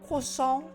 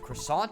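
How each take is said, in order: First: The word is pronounced in an imitated cartoon style. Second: The word is pronounced in an ordinary way.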